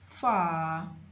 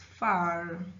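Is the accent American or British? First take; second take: British; American. First: It is said in a British accent. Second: It is said in an American accent. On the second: "In American English the r sound is there"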